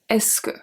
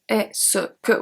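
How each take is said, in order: First: It runs together as one word. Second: It is broken into separate parts. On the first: The speaker calls it right. "It's basically one word" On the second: The speaker calls it wrong. "we do not say est-ce que, we don't break it down"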